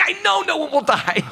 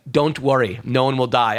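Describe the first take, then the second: First: High-pitched, exasperated mock squeal; exasperated retort. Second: Even, measured retold reassurance; matter-of-fact reassurance. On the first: Client answering the palm reader's familiar reassurance, exasperated. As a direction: throw it back with pitch shooting way up. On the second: Palm reader reassuring a worried client, matter-of-fact. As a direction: say it evenly, as a settled fact.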